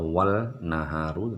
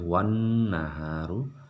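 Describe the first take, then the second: First: An L sound is heard before naharu. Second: An N sound is heard before naharu. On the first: The speaker calls it wrong. "tidak dibaca" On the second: The speaker calls it right.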